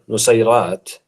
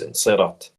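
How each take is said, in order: First: The full word is said, starting with nu. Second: The opening nu is dropped from the word. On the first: This is the standard formal pronunciation. "the Fusha uh, pronunciation, which is uh, the most popular one" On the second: This is the everyday colloquial pronunciation. "the uh, colloquial pronunciation is"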